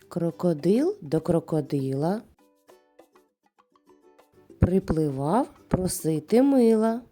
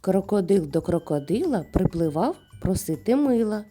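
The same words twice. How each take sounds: First: It is said slowly. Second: It is said quickly. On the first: "А тепер повільно повторюй за мною" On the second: "А тепер давай швидше"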